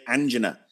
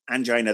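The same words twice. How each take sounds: First: "angina" as AN-jin-uh; "angina" with a short i, AN-jin-uh; American pronunciation. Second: "angina" as an-JY-nuh; "angina" with the long i stressed, an-JY-nuh; British pronunciation. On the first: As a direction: say "angina" stressed on the first syllable. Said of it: "They have to say angina". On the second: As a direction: say "angina" rhyming with China. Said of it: "Americans can't say angina". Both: Shown as a demonstration.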